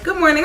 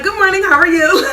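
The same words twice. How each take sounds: First: Said in the usual way. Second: High and loud, bursting with nervous energy; hyped greeting. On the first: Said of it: "So she was like". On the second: Retold or imitated. Nervous test taker greets the proctor, over-excited. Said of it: "Like, I was just so hyped".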